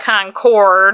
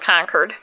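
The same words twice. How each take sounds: First: It is said in a non-local, outsider pronunciation. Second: It is said in the local New England pronunciation. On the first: The speaker calls it wrong. "They pronounce Concord wrong" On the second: The speaker calls it right. "up here we call it Concord"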